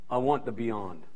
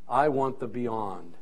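No difference in how they are said.

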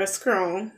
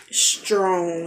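First: "scrong" with SKR in place of STR; mispronounced STR sound. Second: "strong" with a deliberate, clear STR; careful STR pronunciation. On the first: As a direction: say strong as "scrong", a K replacing the T. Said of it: "I would like to say the word". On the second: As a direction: form the tongue carefully for the T in "strong". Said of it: "take my time and form my tongue". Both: Shown as a demonstration.

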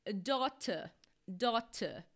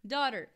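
First: British "daughter", crisp t and no final r; English-accent "daughter" with a true t. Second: Loud American "Daughter" with tapped t; American pronunciation. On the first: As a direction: say "daughter" as in England, DAW-tuh. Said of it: "na Inglaterra eles falariam". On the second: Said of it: "pronúncia americana como a britânica". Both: Shown as a demonstration.

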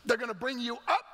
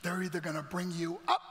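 First: "up" lifted high and punched; forceful climb to a high "up"; emphatic rise on up. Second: Said in the usual way. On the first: Real, not acted. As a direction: repeat it louder, sending "up" upward. Repeats elevator line with force.

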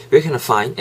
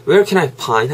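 First: Where can I find with find said with a clear F; right F sound. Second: Where can I find with find said as a P sound, pine; a deliberately wrong pind. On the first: A teacher showing the correct F in find. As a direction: keep the F in find. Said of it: "F 사운드 지켜주시고". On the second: A teacher showing the mistake, find said with a P. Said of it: "P 사운드 하면은". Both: Shown as a demonstration.

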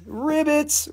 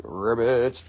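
First: High-pitched little ribbit; playful high croak. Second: Deep-pitched ribbit; playful low croak. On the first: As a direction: squeak the name up high. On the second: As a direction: drop the name down low. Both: Pretend. Playing with a buyer's name.

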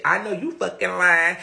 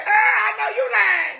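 First: Said in the usual way. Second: Much higher, loud, laughing and crying out; laughing shout. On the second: Retold or imitated. She retells the thumb talking back, laughing loudly. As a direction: yell it while cracking up.

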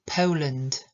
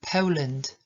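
First: "Poland" stressed on "Po", gliding like "POH-land"; diphthong o. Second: "Poland" again, "Po" as a gliding diphthong; repeat model. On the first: Teacher isolating the word to model the vowel. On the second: Teacher repeating the word for students. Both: Shown as a demonstration. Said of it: "wymawiamy to jako o".

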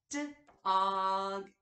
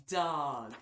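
First: "D-og" split into D and og, loud; sounded out. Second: Said in the usual way. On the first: Shown as a demonstration. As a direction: stretch "D-og" apart sound by sound. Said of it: "break down the beginning, middle, and ending sound". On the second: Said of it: "then say the whole word".

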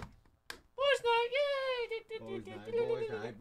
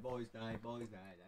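First: Very high, giddy falsetto chant; squealed cheer. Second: Low, soft mock chanting. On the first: Pretend. Cheering for boys' night, high squeals. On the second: Chanting about boys' night, low and soft. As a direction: drop it right down and murmur the chant.

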